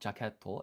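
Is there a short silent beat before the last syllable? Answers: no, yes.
no. It is said smoothly without a silent beat. The speaker calls it wrong. "So it's not jaketo"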